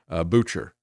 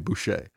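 First: The name is read like the English word butcher. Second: The name is given a French pronunciation. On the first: The speaker calls it wrong. "I would look at it and I'd say, Butcher" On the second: The speaker calls it right. "if that's the French pronunciation"

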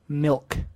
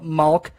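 First: The vowel sounds like 'ih'. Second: The vowel sounds like 'ah'. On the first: The speaker calls it right. "they never say milk" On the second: The speaker calls it wrong. "people always mess up the word milk? They call it malk"

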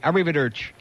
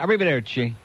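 First: It is said with a New Jersey accent. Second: It is said with a careful Italian accent.

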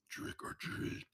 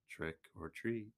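First: It is said in a creepy voice. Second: It is said in a plain voice.

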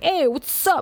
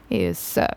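First: The greeting sounds enthusiastic and excited. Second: The greeting sounds calm and cool.

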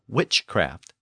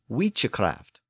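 First: It is pronounced as the modern English word. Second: It is pronounced with older Old English sounds. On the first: This is the present-day form of the word. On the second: This is the original old form of the word. "another old English word for sorcery"

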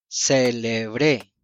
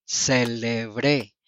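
No difference in how they are said.

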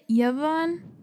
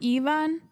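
First: The name begins with a Y consonant sound. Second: The name begins without a Y consonant sound. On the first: The speaker calls it right. "we pronounce it Yvonne ... Like you pronounce the Y" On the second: The speaker calls it wrong. "instead of"

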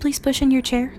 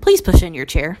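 First: The request is said in a gentle tone. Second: The request is said in a harsh tone. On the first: The request is a kind, polite ask. The speaker calls it right. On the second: The request sounds like an irritated command. The speaker calls it wrong.

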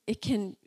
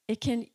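No difference in how they are said.

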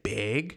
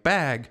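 First: It is said in a Minnesota accent. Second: It is said in a New Jersey accent.

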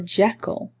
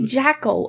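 First: The first vowel sounds like the E in bed. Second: The first vowel sounds like the A in cat. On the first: The speaker calls it right. "It's actually an E" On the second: The speaker calls it wrong. "Do you say Jackal or Jekyll?"

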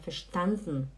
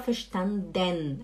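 First: The e of the final syllable is swallowed. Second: The final syllable keeps its full e vowel. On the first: The speaker calls it right. "A gente fala verstanden" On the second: The speaker calls it wrong. "Mas a gente não fala verstanden"

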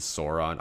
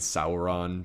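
First: The first vowel sounds like 'saur' in dinosaur. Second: The first vowel does not sound like dinosaur. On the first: This is how the speaker habitually says it. The speaker calls it wrong. "I also say Smaug and Sauron. ... I read the AU as dinosaur" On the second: This is the accepted way to say it. The speaker calls it right. "I know it's Smaug and Sauron"

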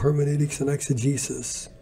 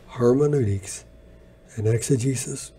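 First: The words are said at a normal pace. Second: The words are said slowly and deliberately.

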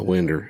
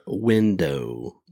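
First: The word ends with an 'er' sound. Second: The word ends with a clear 'oh' sound. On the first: "You got a potato, a winder" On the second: "you don't say in the South, you're not saying potato or window"

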